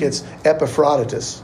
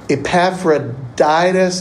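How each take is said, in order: First: The name is said in Greek-style form. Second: The name is said in anglicized form. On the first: The speaker calls it right. "In Greek, it's Epaphroditus" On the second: The speaker calls it wrong. "that's a British pronunciation"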